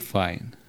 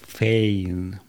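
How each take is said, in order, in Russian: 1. Имя произносится с гласным 'eye'. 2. Имя произносится с гласным 'ay'. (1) "тогда меня правильно бы называли «файн»" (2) "любой умеющий читать американец будет, не задумываясь, произносить это как «фейн»"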